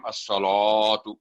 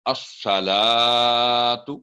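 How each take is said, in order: First: अस्सलातु with the ला made heavy as well; wrong thick lam. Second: अस्सलातु with a heavy स and a light ला; slow recitation. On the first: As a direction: show the mistake of thickening the ला. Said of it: "तो ये भी wrong है". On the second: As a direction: recite slowly, keep the ला thin. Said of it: "क्योंकि स्वाद thick letter है". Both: Shown as a demonstration.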